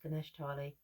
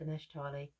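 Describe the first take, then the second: First: The name is said as Ganesh Tali. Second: The same.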